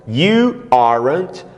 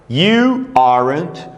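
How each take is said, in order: Both takes have the same delivery.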